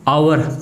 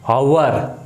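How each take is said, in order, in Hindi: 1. शब्द सीधे एक स्वर से शुरू होता है। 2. शब्द 'h' की ध्वनि से शुरू होता है। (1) "आ की आ रही है" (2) "हावर ऐसे थोड़ी बोलेंगे"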